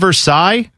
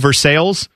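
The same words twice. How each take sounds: First: It is said with a French-style pronunciation. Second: It is said with an Ohio-style pronunciation.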